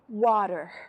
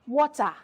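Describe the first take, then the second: First: It is said in an American accent. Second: It is said in a non-American accent. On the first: This is the relearned way of speaking. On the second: This is the earlier way of speaking.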